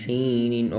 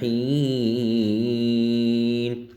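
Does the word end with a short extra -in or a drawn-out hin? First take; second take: extra -in; drawn-out hin. First: The word ends with a short extra -in syllable. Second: The word ends in a drawn-out hin, no -in. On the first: The reading continues without stopping. "নুন দুই জিন নিন ইলা হিনিন" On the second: The reader stops on this word. "অফ করলে হিন তিনের প্রাণ হবে"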